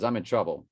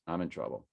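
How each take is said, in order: First: Said in the usual way. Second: Softer, sinking "I'm in trouble"; quiet dejected repeat. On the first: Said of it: "he goes". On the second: Retold or imitated. Son repeating his worry to dad, quieter. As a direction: let "I'm in trouble" drop softly, resigned. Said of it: "He goes".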